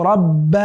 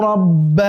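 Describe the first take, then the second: The two takes are said the same way.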